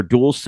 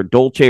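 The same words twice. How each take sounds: First: "Dulce" with an s sound in the middle; Spanish-style pronunciation. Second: "Dolce" with a ch sound in the middle; Italian-style pronunciation. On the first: Host offering the other way to say the town, Spanish-style DOOL-say for "Dulce". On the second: Host giving one way to say the base's town, Italian-style DOHL-chay for "Dolce". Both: Shown as a demonstration. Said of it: "depending on how you say it".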